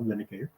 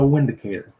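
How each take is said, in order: First: The word begins with a V sound. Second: The word begins with a W sound. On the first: "should be pronounced Vindicator because in Germany they pronounce the W as a V" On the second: "I call it the Windicator"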